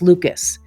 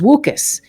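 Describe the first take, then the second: First: The first sound is a clear L sound. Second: The first sound is a rounded W sound. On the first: The speaker calls it right. "the tongue lifted and it came out as Lucas" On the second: The speaker calls it wrong. "their L's were always rounded and it was a, a W sound"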